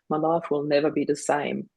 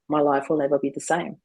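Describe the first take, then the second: First: It sounds self-pitying and sorry for oneself. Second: It sounds flat and neutral, without emotion.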